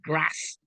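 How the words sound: It is said in a broad Yorkshire accent. This is how the newcomer said it. "with a broad Yorkshire accent"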